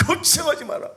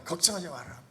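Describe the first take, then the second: First: 걱정하지 마라 shouted high and loud, 걱정하지 punched and falling; mock arrogant brag. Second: 걱정하지 마라 said lightly, a mild brag with falling 걱정하지; offhand reassurance, 걱정하지 stressed and falling; mildly boastful. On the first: Preacher mocks the proud disciples, loud cocky brag. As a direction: ham up the cocky boast. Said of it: "교만했잖아요". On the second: Acted. Disciples reassure the father, a mild offhand brag. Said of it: "막 큰 소리 치고".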